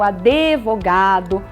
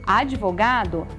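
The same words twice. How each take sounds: First: An extra e vowel follows the d sound. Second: The d runs straight into the v sound. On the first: The speaker calls it wrong. "como se houvesse um E na palavra" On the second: The speaker calls it right. "é com demudo"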